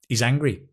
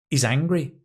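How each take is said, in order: Both takes have the same delivery.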